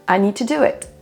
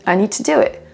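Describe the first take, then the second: The two takes are said the same way.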